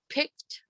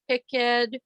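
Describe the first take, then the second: First: The ending is a single T sound. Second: The ending is said as a separate syllable. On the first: "we just say picked" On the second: "instead of picked"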